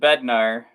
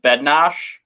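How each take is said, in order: First: The name ends with an r sound. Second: The name ends with an sh sound. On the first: This is how the team's scout says it. "we heard Draper pronounce it Bednar" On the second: This is how the broadcaster says it. "they said Bednosh"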